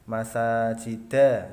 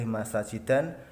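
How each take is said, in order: First: The word ends on a plain vowel. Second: The word ends with an added n sound. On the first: The speaker calls it right. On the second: The speaker calls it wrong.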